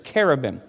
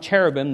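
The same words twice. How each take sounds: First: It does not begin with a church-like ch. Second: It begins with a ch as in church. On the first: The speaker calls it right. "there's cherubim. So in our pronunciation of it, that's what it should be" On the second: The speaker calls it wrong. "there's not cherubim"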